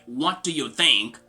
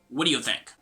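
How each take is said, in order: First: Each word is said separately and distinctly. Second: The words are linked together in one smooth flow. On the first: The speaker calls it wrong. "Instead of saying something like" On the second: The speaker calls it right. "You're gonna say something like"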